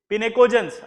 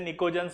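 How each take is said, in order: First: The opening P is sounded before the N. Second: The opening P is silent before the N. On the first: The speaker calls it wrong. "आप अगर spelling बोलेंगे तो आपको पिनेकोजेंस आएगा" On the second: The speaker calls it right. "पी silent रहता है, इसे निकोजेंस बोलते हैं"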